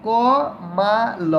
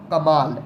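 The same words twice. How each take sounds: First: Drawn out. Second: Said in the usual way. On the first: Shown as a demonstration. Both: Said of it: "अगला शब्द है".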